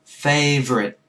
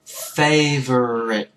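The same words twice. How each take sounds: First: Said in the usual way. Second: Favorite drawn out very slowly; đọc chậm favorite; slow model favorite. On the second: Shown as a demonstration. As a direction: stretch every syllable of favorite.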